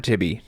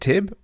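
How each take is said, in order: First: The name is said with two syllables. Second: The name is said with one syllable. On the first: "or Tibby" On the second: "Whether you pronounce it Tib"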